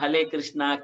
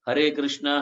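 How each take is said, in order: First: The first word is said with an L sound. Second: The first word is said with an R sound. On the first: The speaker calls it wrong. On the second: The speaker calls it right.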